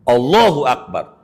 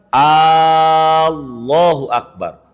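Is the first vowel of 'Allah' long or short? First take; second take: short; long. First: The first vowel of Allah is short. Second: The first vowel of Allah is drawn out long. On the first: It states that God is the greatest. The speaker calls it right. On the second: It asks whether God is the greatest. The speaker calls it wrong. "kalau dipanjangin"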